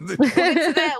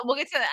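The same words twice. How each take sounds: First: Laughing through the words. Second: Said in the usual way. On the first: Real, not acted. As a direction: let a laugh break through. Laughing while deferring topic.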